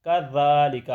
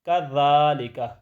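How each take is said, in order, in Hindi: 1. बीच का व्यंजन नरम th ध्वनि है। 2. बीच का व्यंजन नरम th ध्वनि है।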